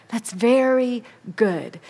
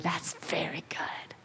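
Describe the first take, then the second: First: Said in the usual way. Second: Hushed whisper of approval. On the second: Acted. God whispering his approval over creation. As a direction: breathe it as a tender whisper.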